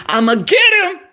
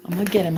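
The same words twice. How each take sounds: First: High, loud put-on vow; gleeful growing determination. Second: Said in the usual way. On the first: Real, not acted. Woman vowing to land her man, gleefully determined. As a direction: belt it out with relish.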